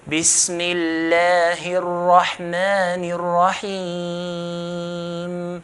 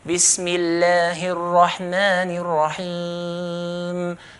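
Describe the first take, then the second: First: It is recited slowly and calmly. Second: It is recited at a medium pace.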